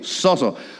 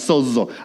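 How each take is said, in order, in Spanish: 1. La segunda consonante es un sonido s simple. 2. La segunda consonante es un sonido z. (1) "No, no, así no" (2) "es Z la segunda"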